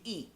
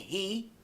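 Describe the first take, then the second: First: It begins directly with the vowel. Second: It begins with an audible h sound. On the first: The speaker calls it wrong. "they say" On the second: The speaker calls it right. "like a H"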